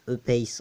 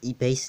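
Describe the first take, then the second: First: It is said with a French accent. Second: It is said with an English accent. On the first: The speaker calls it right. "vaut mieux garder l'accent français" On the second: The speaker calls it wrong. "si tu prononces E-Pace en anglais"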